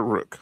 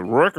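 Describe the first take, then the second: First: "Rook" with a short oo, as in book; alternative pronunciation. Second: "Rook" with an r-coloured vowel, like Rourke; alternative pronunciation. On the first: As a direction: say "Rook" to rhyme with "look". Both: Shown as a demonstration. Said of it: "Is it Rook or Rook?".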